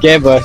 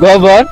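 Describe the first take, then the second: First: The first vowel is an 'e' sound. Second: The first vowel is an 'o' sound. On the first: This is the local dialect form. "আমরা বলি গেবর" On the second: This is the standard Bengali form. "যেটা বাংলা ভাষায় বলে গোবর"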